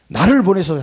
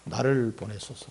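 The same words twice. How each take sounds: First: Louder, ringing plea to be sent; 힘차게 선포하듯; fervent declaration. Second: Softer, slower quiet repeat; 조용하고 느리게 되뇌듯; soft slow echo. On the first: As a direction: proclaim it boldly. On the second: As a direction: let it settle, hushed and slow. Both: Shown as a demonstration. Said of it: "하는 거야, 나를 보내소서".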